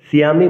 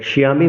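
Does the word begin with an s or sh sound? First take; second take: s; sh. First: The first consonant is a clear s sound. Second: The first consonant is a sh sound. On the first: The speaker calls it right. "দন্তস্বকে এস এর মতো উচ্চারণ করতে হয়, এজন্যই সিয়ামি বলতে হবে" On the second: The speaker calls it wrong. "শিয়ামি বলা যাবে না"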